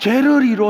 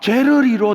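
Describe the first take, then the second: First: The middle consonant is flapped like an r. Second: The same.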